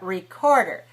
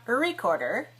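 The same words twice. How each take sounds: First: The stress is on the second syllable. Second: The stress is not on the second syllable. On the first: The speaker calls it right. "three syllables, stressed on the second" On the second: The speaker calls it wrong. "not recorder"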